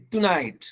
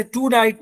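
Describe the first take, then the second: First: "टुनाइट" with a brief "tu"; quick short vowel. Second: "टुनाइट" as "too-night"; wrong long vowel. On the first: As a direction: hurry the first syllable of "टुनाइट". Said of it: "जल्दी में बोलेंगे इसको". ("टुनाइट" में छोटा "टु") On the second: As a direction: stretch the first syllable of "टुनाइट". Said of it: "इसी तरीके से टुनाइट नहीं". ("टुनाइट" में लंबा "टू") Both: Shown as a demonstration.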